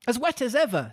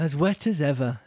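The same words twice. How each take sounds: First: It is said in a plain, neutral tone. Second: It is said in a sad, melancholy tone.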